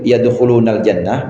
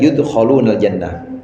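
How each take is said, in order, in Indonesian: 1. Suku kata pertama memiliki vokal 'a'. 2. Suku kata pertama memiliki vokal 'u'. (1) "Boleh dibaca yudh Yud" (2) "boleh boleh dibaca yudkhulunal jannah"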